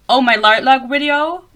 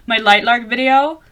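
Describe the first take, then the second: First: Loud, drawn-out "Lightlark video" with a foreign accent; accent slipping out. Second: "Lightlark video" said again carefully, each sound clear, loud and slow; accent corrected. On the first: Podcaster exclaiming over own video views, accent slipping. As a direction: let the accent slip, blurring "Lightlark video". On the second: Podcaster fixing own slipped accent, careful "Lightlark video". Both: Real, not acted. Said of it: "my accent is really coming out".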